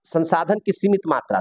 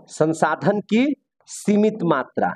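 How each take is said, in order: First: Said in the usual way. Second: Very slow, with a pause mid-phrase; slow dictation. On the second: Real, not acted. Teacher dictating a point for students' notes, slow dictation. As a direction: spell the phrase out slowly for note-takers.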